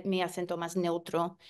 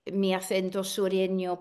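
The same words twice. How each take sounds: First: "mi acento más neutro" with a plain s in "acento"; neutral accent. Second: "mi acento sureño" with a lisped th in "acento"; Andalusian-style "acento" with th; southern Spanish accent. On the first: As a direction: say "acento" with a clean s, no lisp. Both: Shown as a demonstration.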